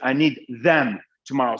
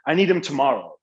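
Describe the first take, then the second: First: 'Them' is said in full with th. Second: 'Them' is reduced to a short 'em'. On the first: "Instead of saying" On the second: "just make it M"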